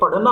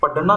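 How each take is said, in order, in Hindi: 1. बीच का व्यंजन एक महाप्राण मूर्धन्य फ़्लैप है। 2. बीच का व्यंजन एक पूर्ण महाप्राण स्पर्श है। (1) "ये पढ़ना होगा, ढा होगा" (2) "पढ़ना नहीं होगा"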